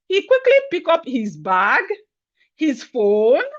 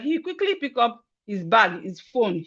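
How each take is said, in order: First: There are short pauses between the listed items. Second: The listed items run together without pauses. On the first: The speaker calls it right. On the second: The speaker calls it wrong.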